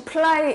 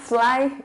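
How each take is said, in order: First: The word starts with a P sound. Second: The word starts with an F sound. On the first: The speaker calls it wrong. "여러분 혹시 fly 이러지 않으시죠?" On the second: The speaker calls it right. "fly 이랬죠?"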